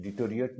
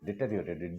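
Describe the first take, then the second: First: डिटोरिएट shortened to di-to-ri-et; common mispronunciation. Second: डिटोरिएट said in full as de-te-ri-o-rate; correct pronunciation. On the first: Teacher shows students what people wrongly say, डिटोरिएट mispronounced as di-to-ri-et. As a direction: drop a syllable in डिटोरिएट, saying "di-to-ri-et". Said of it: "डिटोरिएट नहीं होता है ना". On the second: Teacher models the word for students, डिटोरिएट pronounced correctly as de-te-ri-o-rate. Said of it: "नहीं होता है ना". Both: Shown as a demonstration.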